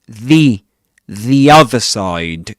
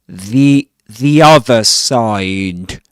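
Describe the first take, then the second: No difference in how they are said.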